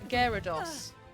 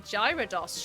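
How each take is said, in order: First: The name begins with a hard g sound. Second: The name begins with a j sound. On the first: "I have always said Gyara Gyarados" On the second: "like gyroscope"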